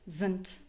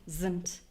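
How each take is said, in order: No difference in how they are said.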